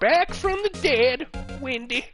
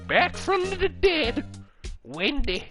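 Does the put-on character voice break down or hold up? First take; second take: breaks down; holds up. First: The put-on old woman's voice does not come off. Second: The put-on old woman's voice comes off convincingly. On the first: The speaker calls it wrong. "I can't do it" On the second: The speaker calls it right. "I think I got it"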